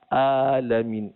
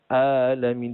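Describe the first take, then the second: Both takes have the same delivery.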